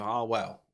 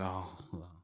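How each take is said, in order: First: It is said in an upbeat, positive way. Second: It is said in a downbeat, negative way.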